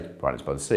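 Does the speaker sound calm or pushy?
calm. It is said in a calm, plain, relaxed way. This is simply how it is. The speaker calls it right. "You'd just say"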